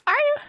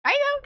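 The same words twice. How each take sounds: First: Said in the usual way. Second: Very high, loud squeaking "you"; squeaked question. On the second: Acted. Streamer echoing the question in a comic squeak. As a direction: shriek the question back.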